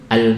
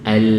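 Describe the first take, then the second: First: The final l sound is cut off very short. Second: The final l sound appears briefly, then fades. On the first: "Kalau pendek sudah al, al" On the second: "Kalau tengah-tengah muncul sebentar terus hilang"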